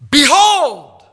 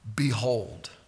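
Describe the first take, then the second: First: The word is shouted loudly. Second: The word is said quietly.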